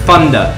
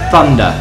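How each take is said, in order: First: The word starts without a th sound. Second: The word starts with a tongue-between-teeth th sound. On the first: The speaker calls it wrong. "I just say thunder, not thunder" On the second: The speaker calls it right. "you're supposed to say thunder with your tongue between your teeth like this"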